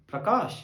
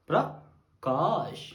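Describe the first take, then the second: First: Said in the usual way. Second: Prakash said very slowly and low, stretched; drawn-out name. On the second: Acted. (Prakash ని నెమ్మదిగా సాగదీసి)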